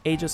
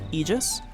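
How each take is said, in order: First: It uses the pronunciation common among Dota players. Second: It uses the standard dictionary pronunciation of the word. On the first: "it just sounds so much better" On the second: "the correct pronunciation of that word is aegis"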